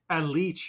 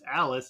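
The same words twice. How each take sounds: First: The name is said the Italian way. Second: The name is said the English way. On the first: The speaker calls it right. "it is pronounced the Italian way" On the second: The speaker calls it wrong. "not actually pronounced Alice"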